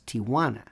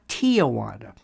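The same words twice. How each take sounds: First: The first syllable is a plain 'tee' sound. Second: An extra 'uh' vowel follows the first syllable. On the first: The speaker calls it right. "It's Tijuana, T I J" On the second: The speaker calls it wrong. "not Tijuana"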